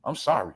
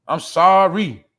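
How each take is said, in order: First: Said in the usual way. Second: Sorry belted out louder, drawn long; a hammed-up shout of an apology; mock loud apology. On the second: Shouting a fake sorry at the viewers, hammed-up and loud.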